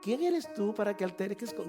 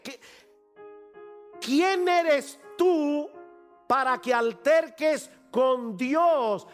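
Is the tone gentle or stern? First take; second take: gentle; stern. First: It is said in a mild, gentle tone. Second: It is said in a firm, stern tone.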